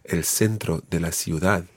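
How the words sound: It is said with a Latin American Spanish accent. "I was using the pronunciations linked to Latin America"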